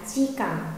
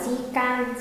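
First: The second syllable has a short 'ă' vowel. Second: The second syllable has an open 'a' vowel. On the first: The speaker calls it right. "mà sẽ đọc là di cẩn" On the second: The speaker calls it wrong. "Không đọc là di can"

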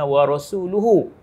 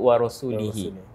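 First: The word ends with the vowels u then u. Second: The word ends with the vowels i then i. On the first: God and His messenger both renounce the idolaters. The speaker calls it right. "dibacaan yang betulnya ialah" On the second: God renounces both the idolaters and His messenger. The speaker calls it wrong. "Salah salah dekat dia sebut wa rasulihi"

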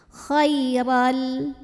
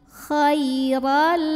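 The two takes are said the same way.

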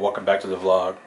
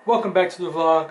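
First: The voice is calm and natural. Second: The voice is loud, bright and high-energy. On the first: This is the speaker's real everyday voice. "that's not right" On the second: This is a put-on performer persona. "I gotta do my YouTuber high energy fake voice"

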